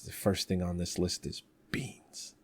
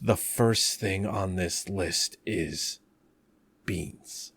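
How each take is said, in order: First: The line is said straight through without pauses. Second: The line is broken up with pauses between words. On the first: "I told you you need the pauses" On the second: "Do it with the pauses"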